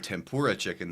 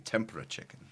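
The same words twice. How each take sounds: First: American style, pitch rising on the second syllable. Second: Japanese style, no rise on the second syllable. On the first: The speaker calls it wrong. "They don't say tempura chicken" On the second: The speaker calls it right. "they say tempura chicken"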